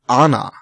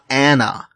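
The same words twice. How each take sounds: First: The name is said in a Scandinavian way. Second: The name is said in an English way. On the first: This is how the character's name is really pronounced. The speaker calls it right. "Her name is Anna" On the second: This is how an English speaker would pronounce the name. The speaker calls it wrong. "It is not Anna. She is not an English person"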